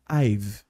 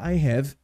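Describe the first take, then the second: First: The words merge into one syllable ending in v. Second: Both words are said in full, separately. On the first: The speaker calls it right. "a gente fala I've" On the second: The speaker calls it wrong. "a gente não fala I have"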